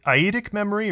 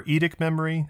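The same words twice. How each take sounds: First: "eidetic" said as "eye-ee-tic"; "eidetic" without the first d sound, eye-ee-tic; eye-EE-tic pronunciation. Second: "eidetic" said as "ee-dic"; "eidetic" squeezed into ee-dic; ee-dic pronunciation. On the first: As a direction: say "eidetic" with a long ee after "eye". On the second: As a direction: start "eidetic" with a long ee, not eye. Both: Shown as a demonstration. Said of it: "How do you pronounce it?".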